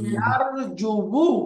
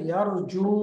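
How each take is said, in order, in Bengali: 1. শব্দের শেষে একটি বাড়তি 'wu' সিলেবল আছে। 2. শব্দটি লম্বা 'u' ধ্বনি দিয়ে শেষ হয়। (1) "এখানে একটু কঠিন হয়ে গেল না উচ্চারণটা" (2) "এই জন্য পড়তে হবে ইয়ারজু"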